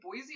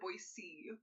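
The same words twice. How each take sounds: First: The middle consonant is a buzzing z sound. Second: The middle consonant is a hissing s sound.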